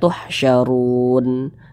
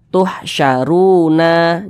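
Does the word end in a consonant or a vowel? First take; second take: consonant; vowel. First: The word ends on a bare n sound. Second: The word ends with a vowel after n. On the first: The reader stops at this word. The speaker calls it right. "huruf nun kita sukunkan" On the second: The reading carries on past the stop. The speaker calls it wrong. "Jangan dibaca tuhsyaruna"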